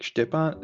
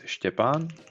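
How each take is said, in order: First: The name is said with American pronunciation. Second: The name is said with Czech pronunciation. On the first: "my U S colleagues they were like" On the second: "My name is Stepan in Czech"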